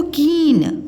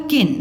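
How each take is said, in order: First: कीन with a long drawn ee; long vowel. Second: किन with a short i; short vowel. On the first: Teacher contrasts two spellings, long ee in कीन. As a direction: hold the ee in कीन. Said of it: "आपने बोला इसको कीन". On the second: Teacher contrasts two spellings, short i in किन. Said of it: "और इसको बोला किन". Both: Shown as a demonstration.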